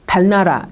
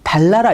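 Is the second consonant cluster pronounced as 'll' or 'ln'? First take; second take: ln; ll. First: The n after l stays an n sound. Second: The n after l is pronounced as l. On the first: The speaker calls it wrong. "이상한 발음이 되는 거죠" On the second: The speaker calls it right. "르르가 됩니다. 그래서 달나라 이렇게 발음을 하셔야 돼요"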